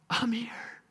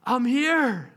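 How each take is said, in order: First: Breathy whispered reveal; whispered I'm here. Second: Said in the usual way. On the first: Acted. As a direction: whisper it right into her ear.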